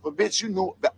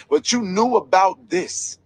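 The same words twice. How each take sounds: First: Said in the usual way. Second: Slow, "knew" hit hard and falling; slow down and lean on "knew"; stress on KNEW. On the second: Real, not acted. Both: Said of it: "I didn't mean to call her bitch".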